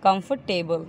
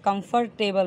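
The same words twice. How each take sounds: First: कंफर्टेबल with the r dropped, kum-pte-bal; silent r. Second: कंफर्टेबल with the r clearly pronounced; wrong version of कंफर्टेबल with an audible r; r sounded, wrong way. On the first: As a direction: say कंफर्टेबल without any r sound. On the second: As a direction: say कंफर्टेबल as kum-fur-table, rolling the r. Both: Shown as a demonstration. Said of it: "के आर silent होता है".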